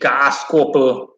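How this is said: The word is said in an exaggerated, mocking way. "They don't pronounce it like that. They literally go like"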